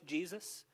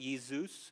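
First: The name is said with English pronunciation. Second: The name is said with German pronunciation. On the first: "whether I'm saying in English Jesus" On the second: "if I'm saying it in German"

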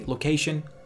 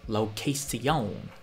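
First: It is said with a plain English accent. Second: It is said with a put-on French accent.

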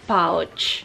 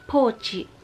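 First: It is said with plain English sounds. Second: It is said with Japanese sounds, ending in a vowel. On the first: "pouch siya talaga" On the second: "Ang tawag din nila dito, pochi"

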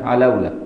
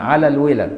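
First: The phrase is run together into one word. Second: The phrase is said as two separate words. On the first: This is the colloquial everyday form. "يقوم يحولها للعام يقول لك علولة" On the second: This is the original, fuller form. "هي اصلا على الولا"

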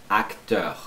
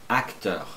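No difference in how they are said.

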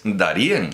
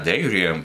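First: The stress is on the last syllable. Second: The stress is on the first syllable. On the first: This is how it was originally said. The speaker calls it right. "pero es Darién. ... originalmente se pronunciaba con acento en la E" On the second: This is how the current generation says it. The speaker calls it wrong. "lo están llamando ya Darién"

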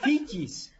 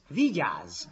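First: The word begins with a voiceless f sound. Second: The word begins with a voiced v sound. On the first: The speaker calls it wrong. "a V-nek az öngétlen párját használta, ő F-re sikeredett" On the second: The speaker calls it right. "Nem fityisz, vigyázz"

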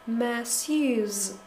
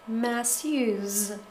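No difference in how they are said.

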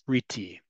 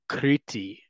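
First: The R is an American-style R sound. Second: The R is a Hebrew-style R sound.

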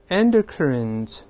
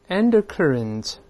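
Both takes have the same delivery.

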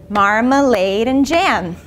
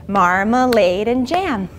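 No difference in how they are said.

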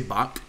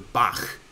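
First: The word ends in a hard k sound. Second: The word ends in a rasping throat sound. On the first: "a lot of people just say Bach with a hard K" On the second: "the closest thing is in Scottish English, Loch Ness Monster. Now that's the right sound. Or to say the name of the composer"

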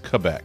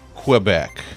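First: Quebec is said the Canadian way. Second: Quebec is said the common American way. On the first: The speaker calls it right. "I learned that that's not how it's pronounced. It's pronounced Quebec" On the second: The speaker calls it wrong. "typically we've pronounced it Quebec. That's how people say it"

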